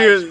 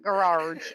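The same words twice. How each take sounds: First: The word is said without any extra r sound. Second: An extra r sound is inserted into the word. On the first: The speaker calls it right. "it's garage" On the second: The speaker calls it wrong. "There is no R in the word garage. It's not garage"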